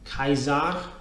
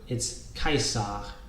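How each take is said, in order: First: The middle consonant is a Z sound. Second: The middle consonant is an S sound. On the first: The speaker calls it wrong. "it's also not Kaiser" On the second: The speaker calls it right. "this is S, not Z"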